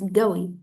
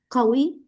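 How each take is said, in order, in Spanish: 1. Empieza con un sonido G fuerte. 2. Empieza con un sonido Q profundo de garganta. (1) "en Arabia Saudí y en los países del Golfo la dicen como Ga" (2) "al lugar de decir como ah, Qawi"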